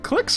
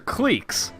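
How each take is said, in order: First: The vowel is short, as in 'click'. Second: The vowel is long, as in 'leak'. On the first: "Is it clicks or cliques?" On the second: "Is it clicks or cliques?"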